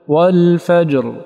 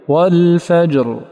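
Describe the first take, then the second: No difference in how they are said.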